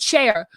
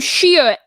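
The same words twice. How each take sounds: First: The name rhymes with 'share'. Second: The name rhymes with 'cheer'. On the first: The speaker calls it right. "everybody pronounces it [name]" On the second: The speaker calls it wrong. "she literally pronounces she pronounces her name [name]. C H E E R"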